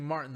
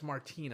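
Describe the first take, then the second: First: The stress falls on the first syllable. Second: The stress falls on the second syllable. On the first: The speaker calls it wrong. "I've been saying Martin this whole time" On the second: The speaker calls it right. "How much you want to bet it's Martin?"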